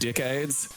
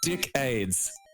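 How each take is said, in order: First: The word is said in its usual, standard way. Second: The word is said in an odd, unusual way. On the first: The speaker calls it right. "the word decades" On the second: The speaker calls it wrong. "one fucked up way of pronouncing something"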